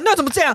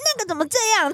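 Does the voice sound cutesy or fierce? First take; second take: fierce; cutesy. First: It is said in a harsh, fierce tone. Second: It is said in a high, cutesy tone. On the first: The speaker seems angry. The speaker calls it wrong. "你不要用一个这么凶的语气说" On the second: The speaker is playfully acting cute. The speaker calls it right. "我真的是说"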